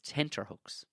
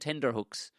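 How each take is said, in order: First: The second syllable starts with a t sound. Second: The second syllable starts with a d sound. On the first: The speaker calls it right. "It's tenterhooks" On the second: The speaker calls it wrong. "if you've been saying tenderhooks, which you know, tender situation, it may sound correct. It's not"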